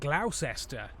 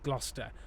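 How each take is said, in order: First: The name is sounded out fully as spelled. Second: The name is said short, like Gloster. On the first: The speaker calls it wrong. "rather than Gloucester" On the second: The speaker calls it right. "pronounce it as Gloucester"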